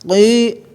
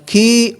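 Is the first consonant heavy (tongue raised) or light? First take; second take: heavy; light. First: The consonant is heavy, with the tongue raised back. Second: The consonant is light, with the tongue not raised. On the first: The speaker calls it right. "hanya huruf al istila terangkat jadinya qi" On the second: The speaker calls it wrong. "Jangan ki"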